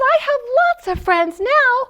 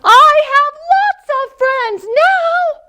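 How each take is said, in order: First: It is said at a normal, quieter volume. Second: It is said very loudly.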